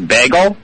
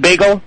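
First: Bagel is said with a Midwestern vowel. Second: Bagel is said with the standard vowel. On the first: This is how a person from Ohio says it. "she also says bagel" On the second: This is the usual way to say it. "instead of bagel"

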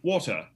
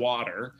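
First: It is said in a BBC British accent. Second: It is said in an American accent.

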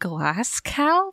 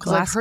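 First: The second part is pronounced like 'cow'. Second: The second part is pronounced like 'go'. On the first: The speaker calls it wrong. "Remember when I said glass cow for some reason?" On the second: The speaker calls it right. "It's obviously Glasgow"

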